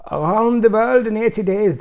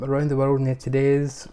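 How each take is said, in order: First: Loud, high, hammed-up German accent; mock German accent. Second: Said in the usual way. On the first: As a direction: belt the title out in a comic German accent. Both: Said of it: "so much German accent stuff today".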